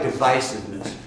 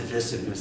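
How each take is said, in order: First: Divisiveness said with a long i, di-VYE-siveness; Midwestern pronunciation. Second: Divisiveness said with a short i, di-VISS-iveness; East Coast pronunciation. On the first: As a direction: stress the long eye vowel in divisiveness. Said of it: "the Midwestern twang". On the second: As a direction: clip the vowel short in divisiveness. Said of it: "That's East Coast". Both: Shown as a demonstration.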